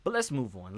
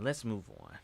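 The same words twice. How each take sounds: First: Said in the usual way. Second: Let's move on dropped low and much softer; quieter repeat. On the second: Real, not acted. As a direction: mutter it again to yourself.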